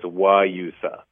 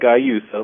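First: The word begins with a W sound. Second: The word begins with a hard G sound. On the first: The speaker calls it right. "but the G is a W, so it's Guyusa" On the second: The speaker calls it wrong. "it looks like Guyusa, like you said"

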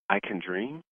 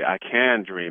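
First: The pitch rises at the end like a question. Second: The pitch falls at the end like a statement. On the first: The person is unsure and asking. "So you hear the tone? It's like, I can dream? It's like a question" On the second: The person fully owns the statement. "where the person's actually owning it"

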